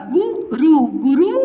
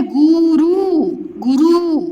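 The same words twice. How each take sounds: First: गुरु with brief u's; short vowels. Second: गुरु loud, with both oo's stretched; slow, held vowels in गुरु; long vowels. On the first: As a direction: keep both syllables of गुरु quick. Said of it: "तो ये बन गया". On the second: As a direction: drag it out as गुरु, goo-rooo. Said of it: "और ये है". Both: Shown as a demonstration.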